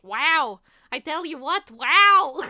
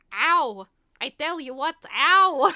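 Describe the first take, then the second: First: Loud, drawn-out happy wows; cartoon bat, delightedly smitten; Bartok. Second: Loud, drawn-out comic ows; cartoon bat's mock pain after a hard landing; Bartok. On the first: Bat just kissed by the lady bat, happily wowed. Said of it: "Just so happy". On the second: Bat landing after being dragged to the underworld, mock-pained yelp. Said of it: "when he finally lands".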